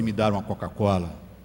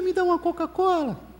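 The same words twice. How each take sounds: First: It is said in a thick, deep voice. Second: It is said in a thin, high voice. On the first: The speaker calls it right. "técnico de voz grossa" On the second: The speaker calls it wrong. "falava muito fino"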